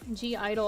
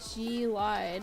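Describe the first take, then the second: First: The second part sounds like 'idol'. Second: The second part sounds like 'lied'. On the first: The speaker calls it right. "I think is how you actually say it" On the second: The speaker calls it wrong. "I think is their name"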